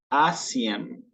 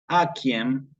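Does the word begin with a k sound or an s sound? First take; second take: s sound; k sound. First: The c is pronounced as an s sound. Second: The c is pronounced as a k sound. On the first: The speaker calls it wrong. "se les escapa decir asiem" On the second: The speaker calls it right. "en cualquier caso la pronuncio como una K"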